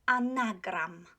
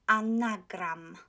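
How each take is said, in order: The two takes are said the same way.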